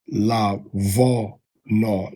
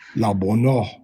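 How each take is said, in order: First: The middle consonant is a soft 'v' sound. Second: The middle consonant is a hard 'b' sound. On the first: This is the later, softer pronunciation. "as opposed to" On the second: This is the ancient pronunciation. "the ancient pronunciation of the Hebrew would have been"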